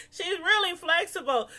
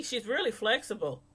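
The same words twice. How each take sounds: First: Repeated through laughter, higher; laughing. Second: Said in the usual way. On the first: Shown as a demonstration. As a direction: say it again cracking up.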